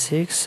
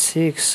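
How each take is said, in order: No difference in how they are said.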